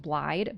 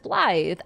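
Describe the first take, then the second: First: The name ends with a d sound. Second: The name ends with a th sound. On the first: The speaker calls it wrong. "eventually I learned it was Blide" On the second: The speaker calls it right. "it's Blythe. I just didn't realize that a double D means t"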